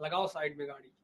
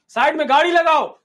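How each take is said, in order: First: Much lower and softer, a secret aside; hushed signal. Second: Louder, higher command to pull over; loud order. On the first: Baba quietly signals disciples to stop the car, hushed. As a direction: murmur the order under your breath. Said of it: "बाबा ने अपने चेलों को इशारा किया". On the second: Baba orders his disciples to pull over, loudly. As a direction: bark it as a clear order. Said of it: "बाबा ने कहा". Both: Acted.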